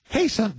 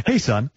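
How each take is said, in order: First: "Hey, son." in a much higher voice; high greeting to her son; high-pitched hey son. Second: Lightly voiced man saying "Hey, son."; a hint of a dad's voice; casual man greeting his son, barely changed; guy voice. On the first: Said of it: "let me do it". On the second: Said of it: "I'll do it in my guy voice". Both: Shown as a demonstration.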